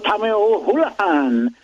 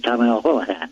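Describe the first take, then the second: First: The name is said with an Irish accent. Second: The name is said with a plain American accent. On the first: "they don't say that" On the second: "They just say Tommy O'Houlihan"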